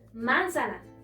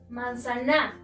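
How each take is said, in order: First: The stress is on the first syllable. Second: The stress is on the last syllable. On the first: "Si estuviera en la antepenúltima, sonaría" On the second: "Si encontráramos aquí, la sílaba tónica sonaría"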